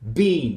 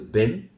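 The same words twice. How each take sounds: First: The word is said with a full, long vowel. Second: The word is said with a short, weak vowel. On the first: "Been turns into been" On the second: "Been turns into been"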